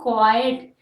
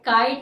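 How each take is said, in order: First: It starts with a k followed by a w sound. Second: It starts with a plain k, no w sound. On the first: The speaker calls it right. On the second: The speaker calls it wrong.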